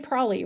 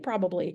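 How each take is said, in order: First: The word is shortened, with a syllable dropped. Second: The word is said with all its syllables. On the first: This is how people really say it. "We say probably" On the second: This is the full form people rarely use. "We don't actually say probably"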